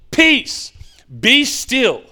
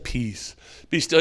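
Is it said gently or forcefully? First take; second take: forcefully; gently. First: It is said forcefully and loudly. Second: It is said gently and softly.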